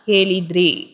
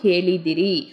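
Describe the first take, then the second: First: The middle vowel is dropped. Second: The middle vowel is said fully. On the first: This is the form used in casual speech. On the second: This is the fuller standard form.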